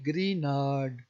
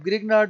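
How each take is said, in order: First: The g before the n is silent. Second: The g before the n is sounded. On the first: "जो जी है ये silent होगा, इसे पढ़ेंगे" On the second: "आप ग्रीनार्ड भी पढ़ लें तो फ़र्क तो नहीं पड़ता"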